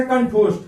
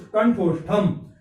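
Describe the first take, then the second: First: Said in the usual way. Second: कंठोष्ठम said slowly with the final म clearly sounded; slow Sanskrit recitation. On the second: Shown as a demonstration. Teacher to class, reciting the Sanskrit form slowly. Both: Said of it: "अब इसका उच्चारण स्थान क्या होता है".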